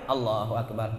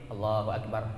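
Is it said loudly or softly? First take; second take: loudly; softly. First: It is said loudly and strongly. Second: It is said softly and briefly.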